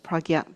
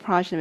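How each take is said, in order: First: The middle consonant sounds like 'gy'. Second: The middle consonant sounds like a 'j'. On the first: The speaker calls it right. "it should be pronounced as pragya" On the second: The speaker calls it wrong. "we say prajna"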